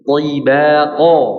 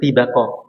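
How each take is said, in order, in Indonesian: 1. Bunyi t-nya tebal sekali. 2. Bunyi t-nya biasa dan tipis. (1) "tapi toy, toy, tibaqa" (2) "jadi nggak dibaca tibaqa"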